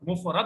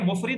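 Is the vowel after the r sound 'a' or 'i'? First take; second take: a; i. First: The vowel after the r sounds like a. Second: The vowel after the r sounds like i. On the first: The speaker calls it right. "मुफरद होता है। मुफरद रा को जबर है" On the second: The speaker calls it wrong. "ये मुफरिद नहीं होता"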